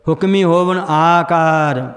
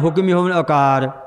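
First: The first word ends with a final 'ee' vowel. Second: The first word ends without a final 'ee' vowel. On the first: The speaker calls it right. "ਹਾਹਰ ਦੀ ਸਿਆਰੀ ਲਾਉਣੀ ਹੈ" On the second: The speaker calls it wrong. "ਪਰ ਆਪਾਂ ਲਾਉਂਦੇ ਨਹੀਂ ਆਮ ਰੋਜ਼ ਪਾਠ ਵਿੱਚ"

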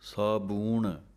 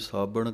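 First: The second syllable has an 'oo' vowel. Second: The second syllable has a short 'a' vowel. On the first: The speaker calls it right. "ਪਾਠ ਹੈ ਸਾਬੂਣ, ਥੋੜ੍ਹਾ ਜਿਹਾ ਕੱਸ ਕੇ ਬੋਲਣਾ ਹੈ" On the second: The speaker calls it wrong. "ਕਈ ਸਾਬਣ ਕਹਿ ਜਾਂਦੇ ਹਨ"

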